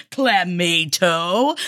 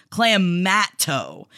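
First: Clamato said slowly with mato like tomato, clam-AY-to; her own clam-tomato pronunciation. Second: Clamato said slowly as clam then matto, with a short flat a; Canadian clam-matto pronunciation. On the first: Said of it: "I say clamato because it's a tomato and a clam". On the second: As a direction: stretch the m in Clamato and rhyme mato with matto. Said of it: "On the east coast of Canada, we pronounce it clam ... mato". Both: Shown as a demonstration.

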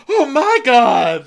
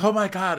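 First: Louder, higher, drawn-out mock wail; hammed-up competitive sobbing; fake crying. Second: High mock-tearful exclamation; put-on weepy cry; fake crying. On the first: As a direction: outdo the other crier with a big slow wail. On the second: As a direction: moan it high, as a pretend sob. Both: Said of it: "you're both fake crying".

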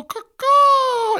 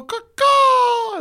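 First: Very high crow cry for a call and response. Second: The crowd's answer, crowed like a crow; very high crow cry for a call and response. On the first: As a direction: call it out like a crow for the crowd to copy. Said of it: "When I go, caw-caw, y'all go". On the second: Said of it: "y'all go". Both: Retold or imitated.

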